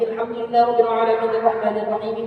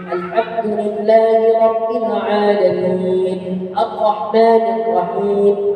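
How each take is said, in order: First: The words are run together without pauses. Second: The words are read slowly with measured separation. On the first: "Wasal itu disambung. Seperti ini" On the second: "Atau baca murattal"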